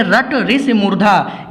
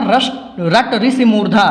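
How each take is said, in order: First: रट ऋषि मूर्धा drawn out slowly; slow the trick down so it sticks; slow emphasis. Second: Said in the usual way. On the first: Shown as a demonstration. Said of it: "ध्यान से देखिए". (रट ऋषि मूर्धा धीरे-धीरे ज़ोर देकर) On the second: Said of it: "क्या बताया था?".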